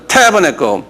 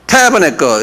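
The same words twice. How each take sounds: First: "tabernacle" again with the first syllable "타" stressed. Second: "tabernacle" with the accent on the first syllable "타"; stress on TA. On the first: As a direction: lean on the opening "ta" of "tabernacle". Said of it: "한번 발음해보자". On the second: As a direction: hit "ta" in "tabernacle" and let the rest fall. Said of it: "액센트가 타에 있어요". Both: Shown as a demonstration.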